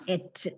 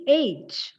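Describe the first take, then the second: First: "H" said with a short vowel, like "etch"; "H" cut short to rhyme with "fetch"; mispronounced H. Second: Said in the usual way. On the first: Shown as a demonstration. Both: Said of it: "Don't say it like that".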